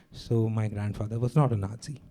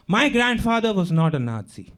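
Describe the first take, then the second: First: Lower, softer conclusion; subdued denial. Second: Raised-pitch, mildly indignant protest; insistent denial. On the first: German concluding potato farmer excuse to questioner, subdued denial. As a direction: close the excuse quietly. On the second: German translating own denial for questioner, insistent protest. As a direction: insist on the family's innocence. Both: Acted.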